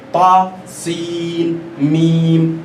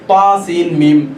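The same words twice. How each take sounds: First: سین and میم stretched very slowly; تا سین میم with each letter held long; drawn-out letter names. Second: تا سین میم run together evenly; تا سین میم quickly, with no madd; rushed letter names. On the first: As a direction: draw out each madd letter. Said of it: "آپ اس کو کھینچیے". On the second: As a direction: say تا سین میم all alike with no stretch. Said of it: "یہ بھی صحیح نہیں ہے". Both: Shown as a demonstration.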